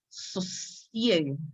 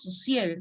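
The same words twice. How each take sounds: First: The middle s sound is long and drawn out. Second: The middle s sound is short and single. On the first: "si hay dos S, él quiere que pronunciemos estas dos S" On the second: "No que digamos sosiegue"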